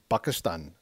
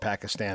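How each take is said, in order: First: It begins with a B sound, Arabic style. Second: It begins with a P sound, English style. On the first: "if an Arabic pronunciation, it would be like Pakistan" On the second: "let's just call it Pakistan and be done with it"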